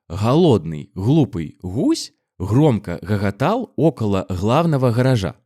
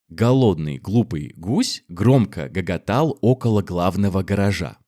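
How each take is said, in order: First: The g sounds are soft and breathy. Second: The g sounds are hard plosives. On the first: This is the Belarusian pronunciation. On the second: This is the standard Russian pronunciation.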